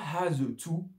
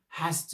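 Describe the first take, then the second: First: The word 'to' has a full vowel. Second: The word 'to' has a reduced vowel. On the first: The speaker calls it wrong. "pas has to" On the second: The speaker calls it right. "le T O, on va le réduire"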